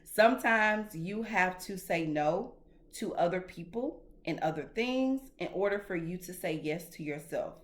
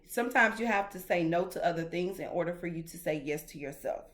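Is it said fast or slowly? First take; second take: slowly; fast. First: It is said slowly. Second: It is said fast.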